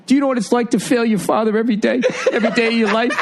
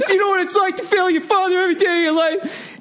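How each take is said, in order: First: High, fast mock-anguished plea; imitating anguished outburst. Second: Squealed, very high mock sobbing plea; mock crying. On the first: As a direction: mimic a big guy on the verge of tears. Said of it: "his face gets all twisted up". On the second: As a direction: wail it like a big man in tears. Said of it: "He starts crying".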